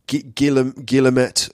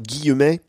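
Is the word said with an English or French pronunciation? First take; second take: English; French. First: The word is said with an anglicized pronunciation. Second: The word is said with a French pronunciation. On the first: "in English it seems that we kind of anglicize the word" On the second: "in French it's like Guillaume"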